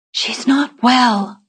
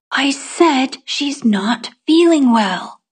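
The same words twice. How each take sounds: First: Put-on higher, slow reply in a child's voice; subdued reply. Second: "I said she's not feeling well" slow and high, word by word; emphatic repeat. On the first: Child telling the boy about Etta, slow high reply. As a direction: answer slowly, pitched up, stretching "well". First answer, not heard by boy. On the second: Child repeating to boy who can't hear, slow and emphatic. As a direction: stretch it out, peaking high on "feeling". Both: A narrator's reading.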